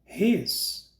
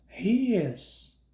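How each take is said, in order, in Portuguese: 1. As duas palavras se fundem em uma única sílaba. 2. As duas palavras são ditas completas e separadamente. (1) "Forma contraída" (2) "Forma integral"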